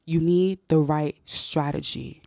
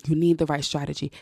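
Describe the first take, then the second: First: Slow emphasis. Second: Said in the usual way. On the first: Shown as a demonstration.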